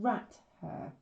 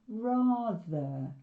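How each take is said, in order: First: It is said as two separate syllables. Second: It is said as one smoothly joined word. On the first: "we're sort of breaking the syllables here" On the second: "we're running it into rather"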